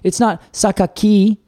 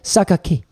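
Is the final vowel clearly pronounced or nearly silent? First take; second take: clearly pronounced; nearly silent. First: The final vowel is pronounced fully and clearly. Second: The final vowel almost disappears. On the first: The speaker calls it wrong. "it's not Sakaki" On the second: The speaker calls it right. "It's like Sakaki. Like it's almost like the I disappears"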